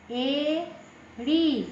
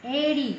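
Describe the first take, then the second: First: एड़ी stretched out very slowly; slow model word एड़ी for pupils; very slow demo. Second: Said in the usual way. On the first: Shown as a demonstration. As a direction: draw out एड़ी syllable by syllable. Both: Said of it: "यानी उच्चारण देखने के लिए".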